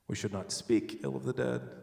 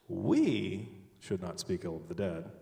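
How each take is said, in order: First: The word 'speak' is stressed. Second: The word 'we' is stressed. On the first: Bad thoughts about them are allowed. "We can think it" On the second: Someone else may say bad things about them. "but someone else can"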